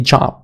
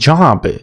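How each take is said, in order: First: The word is said weakly, soft and reduced. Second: The word is said fully, loud and clear. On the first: The speaker calls it right. "No, you say job" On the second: The speaker calls it wrong. "You don't say job"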